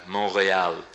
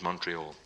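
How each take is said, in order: First: Montreal said the French way; French pronunciation. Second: Said in the usual way. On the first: Shown as a demonstration. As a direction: say Montreal as a French speaker would. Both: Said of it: "Means Montreal".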